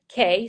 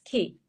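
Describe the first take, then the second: First: The vowel sounds like 'ay' in 'say'. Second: The vowel sounds like 'ee' in 'see'. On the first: The speaker calls it wrong. "they always say K, so we have to correct them" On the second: The speaker calls it right. "It's key"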